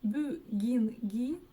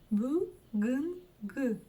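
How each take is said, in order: First: The vowels are pronounced very soft. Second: The vowels are pronounced very hard. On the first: "Пробуем прочитать через букву И" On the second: "Пробуем сначала прочитать через И"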